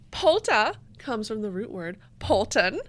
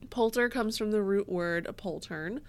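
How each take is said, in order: First: It is said in a put-on German accent. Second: It is said in her normal accent.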